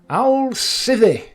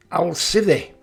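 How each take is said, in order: First: "I'll sithee." sung out high and slow, falling on "sithee"; drawn-out sign-off. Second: Said in the usual way. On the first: Shown as a demonstration. Giving his Yorkshire sign-off, high and drawn out. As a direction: stretch "I'll sithee" high and loud like a farewell. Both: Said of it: "what are the origins of my sign-off".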